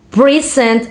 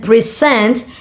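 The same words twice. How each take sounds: First: "present" as PRE-sent; stress on first syllable of "present". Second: "present" as pre-SENT, slow; stress on second syllable of "present". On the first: Student contrasting noun with verb, first-syllable stress on "present". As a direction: hit the start of "present". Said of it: "present is a noun". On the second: Student contrasting verb with noun, second-syllable stress on "present". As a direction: lean on the end of "present". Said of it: "present is a verb". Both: Shown as a demonstration.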